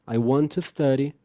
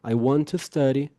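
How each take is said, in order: First: The T sounds of want and to merge. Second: The T sounds of want and to merge.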